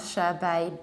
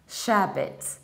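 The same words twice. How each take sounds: First: The ending is not reduced and lacks a clear t. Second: The ending is reduced and ends with a t. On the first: The speaker calls it wrong. "not sherbet" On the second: The speaker calls it right. "reducing the ending and pronouncing T"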